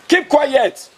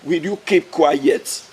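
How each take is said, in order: First: Sharp order. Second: Drawn-out, very slow warning. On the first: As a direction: bark it short and sharp. Sharp louder repeat after slow warning. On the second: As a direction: stretch every word as a threat. Slow drawn warning, then loud repeat. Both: Acted.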